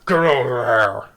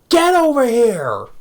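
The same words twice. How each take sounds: First: The line sounds muffled and held back. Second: The line is a clear, open scream.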